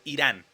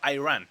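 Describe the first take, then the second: First: The name is said with a Spanish-style pronunciation. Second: The name is said with an English-style pronunciation. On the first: This is how the name should be said. The speaker calls it right. "no Irán" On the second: This is how the American captain said it. The speaker calls it wrong. "había pronunciado Iran"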